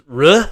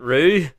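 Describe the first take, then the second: First: The syllable ends with a short 'uh' vowel. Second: The syllable ends with a long 'oo' vowel. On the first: The speaker calls it right. "It's ruh" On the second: The speaker calls it wrong. "not rue"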